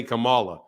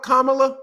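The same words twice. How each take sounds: First: Kamala with stress on the middle syllable, kuh-MAH-luh; mispronounced Kamala. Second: Kamala as the wife says it, imitated; wife's pronunciation of Kamala. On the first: Shown as a demonstration. Husband showing the pronunciation his wife corrects, Kamala as kuh-MAH-luh. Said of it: "corrected my pronunciation 'cause I say". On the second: Wife correcting husband's pronunciation, Kamala said her way. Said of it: "corrected my pronunciation".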